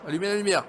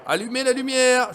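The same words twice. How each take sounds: First: Higher, moderately raised call. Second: Shouting. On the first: Player in the dark asking for light, mild call. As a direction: ask for light, voice lifted. Calls for light, first take. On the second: Player lost in the dark, shouting for light. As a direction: yell it out for someone to hear. Repeats call for light louder. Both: Pretend.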